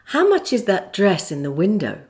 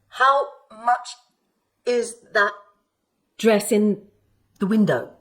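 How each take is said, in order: First: The words are linked smoothly together. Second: The words are separated, sounding jerky. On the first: The speaker calls it right. "Or you can link it like this" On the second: The speaker calls it wrong. "when speech is not linked, it can sound a bit jerky, like this"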